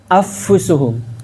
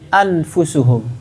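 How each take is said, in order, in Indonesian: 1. Bunyi n menyatu sepenuhnya ke dalam f. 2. Bunyi n diucapkan penuh dan jelas. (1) "Kalau idgham" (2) "Kalau dia dibaca izhar gimana bacanya? ... Itu kalau izhar"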